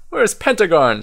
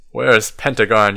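First: High, light chirp of a question; chirping Owl. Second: Firm demand in an everyday pitch. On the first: Owl asking after the missing wizard, chirping. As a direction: pipe it up like a little owl. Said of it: "chirps Owl". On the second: Child to the wizards about missing Pentagon, demanding. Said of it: "you demand". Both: A narrator's reading.

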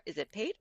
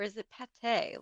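First: "Pate" as one syllable, rhyming with "late"; one-syllable name. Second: "Pate" as two syllables, "pa-TAY"; two-syllable name. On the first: Co-host asking how to pronounce the horse's name, "Pate" as one syllable. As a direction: say "Pate" short, without a second syllable. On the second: Co-host asking how to pronounce the horse's name, "Pate" said as "pa-TAY". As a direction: stress a final "tay" in "Pate". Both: Shown as a demonstration. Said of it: "how are we pronouncing this name".

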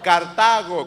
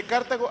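First: "Cartago" with a loud punch on TA; stress on second A. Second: "Cartago" stressed on the first syllable, CAR-tago; mistaken stress. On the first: Shown as a demonstration. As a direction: hit the middle syllable of "Cartago". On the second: Real, not acted. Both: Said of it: "con acento en la segunda A".

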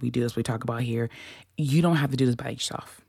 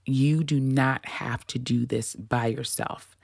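First: Fast, tumbling delivery; words rushing out too quickly; rushed. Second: Slow, deliberate reassurance. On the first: Host reassuring listeners, rushed fast take. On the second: Host reassuring listeners, slow deliberate take. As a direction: lay each word down slowly. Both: Shown as a demonstration. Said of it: "let me slow down".

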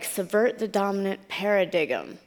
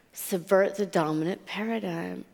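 First: "paradigm" said as para-DIG-um; mispronounced paradigm. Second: Said in the usual way. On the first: Retold or imitated. Newcomer to America reads a bumper sticker, saying "paradigm" as para-dig-um. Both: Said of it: "I read it like".

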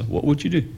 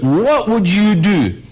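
First: Softer, murmured back to yourself; hushed "What would you do?" with the stress on "do"; quiet reflective question. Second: Slow, louder, each word pressed home; emphatic question. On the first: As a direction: ask "What would you do?" softly, inviting thought. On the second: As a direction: drive the question "what would you do?" home slowly. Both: Shown as a demonstration. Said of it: "Just think".

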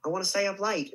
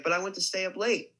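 First: Put-on child's stage line in an Australian accent. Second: Said in the usual way. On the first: Shown as a demonstration. Recalling a forgotten stage line as a nine-year-old, Australian accent. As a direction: say it Australian, "late" sounding like "light". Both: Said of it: "In an Australian accent".

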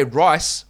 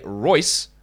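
First: RICE with a clear long "i"; careful pronunciation. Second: ROYCE with a clear "oy"; careful pronunciation. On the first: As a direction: stress rice, rhyming with nice. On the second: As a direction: stress Royce, rhyming with voice. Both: Shown as a demonstration. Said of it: "those words are very different".

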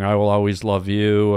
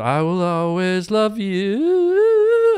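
First: Said in the usual way. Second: Sung, [name] high belt, slow; sung high note. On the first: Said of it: "She did that song". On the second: Retold or imitated. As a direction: sing it high and long, diva style. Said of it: "there was a point in the song where she said".

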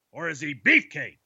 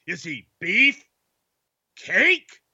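First: "beefcake" said as one falling word. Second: "beef" then long pause, "cake?" leaping high; split word pause. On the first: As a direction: run "beefcake" together, no break. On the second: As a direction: break "beef" from "cake?" with a squeaky rise. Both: Pretend. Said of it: "let's freestyle".

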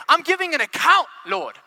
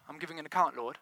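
First: High, loud announcement to God; confident declaration. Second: Low, soft, timid admission; reluctant account. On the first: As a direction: proclaim it up high, dropping on Lord. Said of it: "how would you say that?". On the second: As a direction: offer it meekly, small and subdued. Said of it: "how would you say that? Would you say". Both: Acted.

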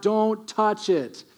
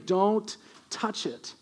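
First: Slow, deliberate divine warning; stern God warning. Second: Slow, hushed reminder of the rule; softer stern warning. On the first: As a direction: lay down a slow, firm command. God warns Israel about ark. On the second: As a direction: repeat the command more quietly and slowly. God repeats warning, softer. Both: Acted.

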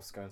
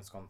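First: "scone" said to rhyme with cone; long-o pronunciation. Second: "scone" said to rhyme with gone; short-o pronunciation. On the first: Brit recalls the scone debate, long-O "scone". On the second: Brit recalls the scone debate, short-O "scone". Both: Shown as a demonstration. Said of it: "the whole scone scone thing".

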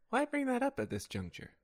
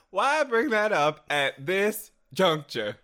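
First: High, softer dainty delivery; high-pitched, lightly wounded query; mock affronted question. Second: Slow, loud, higher melodramatic question; theatrical reproach. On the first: Rehearsing a reversal for a questioner, high and mock-affronted. Trying takes of a reversal line. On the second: Acted. Rehearsing a reversal, slow and melodramatic. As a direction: spread it out with grand mock offence. Dramatic retake of reversal line.

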